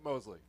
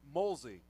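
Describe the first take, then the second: First: The l sound comes after the s. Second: The l sound comes before the s. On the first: The speaker calls it wrong. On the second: The speaker calls it right. "I have been corrected on the pronunciation"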